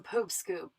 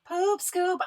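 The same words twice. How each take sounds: First: Said in the usual way. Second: Poop scoop announced much higher and a little louder, like a jingle; sing-song the segment name Poop scoop up high; segment title announced. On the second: Shown as a demonstration.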